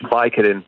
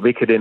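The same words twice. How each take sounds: First: The word has an American pronunciation. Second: The word has a British pronunciation. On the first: "Vicodin è più American" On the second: "Vicodin è più British"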